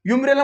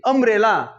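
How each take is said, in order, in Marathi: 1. हा शब्द 'y' आवाजाने सुरू होतो. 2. हा शब्द साध्या स्वराने सुरू होतो. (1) "युम्ब्रेला म्हणतो का? नाही" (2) "अ उच्चार"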